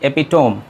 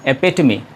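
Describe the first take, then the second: First: It is said with three syllables, ending in 'tome'. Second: It is said with four syllables, ending in 'tuh-mee'. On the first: The speaker calls it wrong. "Generally इसको आप pronounce करेंगे एपिटोम, लेकिन यहाँ पे भी आप गलत हैं" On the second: The speaker calls it right. "इसका सही उच्चारण है एपिटमी"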